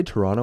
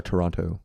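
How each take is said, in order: First: "Toronno", last t left out; Toronto with second t dropped. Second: Full "Toron-to", second t pronounced; Toronto with both t's sounded. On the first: Asking friends which way they say it, Toronto with silent t. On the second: Asking friends which way they say it, Toronto fully enunciated. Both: Shown as a demonstration.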